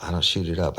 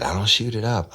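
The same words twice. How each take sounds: First: Said in the usual way. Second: Higher, louder protest; insistent denial. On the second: Retold or imitated. Woman retelling how she protested to the host, raised insistent denial. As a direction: push back hard, mock offended. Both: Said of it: "She said".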